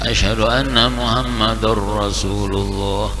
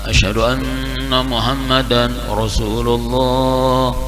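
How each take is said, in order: First: The n sound merges into the following r. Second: The n sound before Rasulullah is pronounced clearly. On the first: "kada mau membaca" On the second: "ilhar nih dibacanya nampak"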